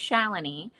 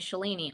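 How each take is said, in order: First: The name is said in its native way. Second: The name is said in an anglicized way. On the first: The speaker calls it right. "it's actually Shalini" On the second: The speaker calls it wrong. "which is not like the correct pronunciation of my name"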